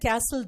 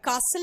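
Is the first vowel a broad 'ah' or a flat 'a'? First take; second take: flat a; broad ah. First: The first vowel is a flat a sound. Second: The first vowel is a broad open ah.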